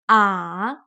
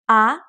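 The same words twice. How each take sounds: First: The pitch dips down, then rises again. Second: The pitch starts mid and rises. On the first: "it starts in the middle, drops down, and goes back up again" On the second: "It starts in the middle, semi high, and goes up"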